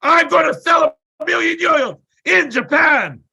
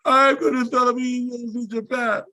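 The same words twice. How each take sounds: First: High, loud full-energy shout; fierce shouted declaration, pitched way up; all-out yell. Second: Higher, strained, rushed recital; retold frantic repeat, pitched well up; pressured declaration. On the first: Retold or imitated. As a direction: bellow the goal with everything you have. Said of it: "this with all my energy". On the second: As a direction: race through it as ordered. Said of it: "Say it again".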